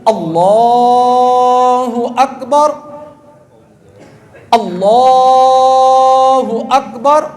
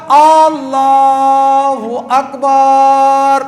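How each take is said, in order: First: اللہ اکبر drawn slowly but with the first alif kept short, rising on اکبر; correct takbir. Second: اللہ اکبر with the first A of اللہ drawn out very long; opening stretched. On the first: Teacher modelling the correct takbir for the congregation. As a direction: intone اللہ اکبر slowly, stretching only in the right place. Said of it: "صحیح کیا ہے؟". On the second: Teacher demonstrating an imam's wrong long opening to worshippers. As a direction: hold the opening alif of اللہ اکبر far too long. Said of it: "شروع میں لمبا کیا". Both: Shown as a demonstration.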